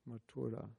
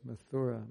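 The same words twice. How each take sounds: First: The name is said with its native sounds. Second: The name is read with English spelling sounds. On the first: The speaker calls it right. "but it's Mathura" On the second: The speaker calls it wrong. "If you're English, you would read M-A-T-H-U-R-A as Mathura"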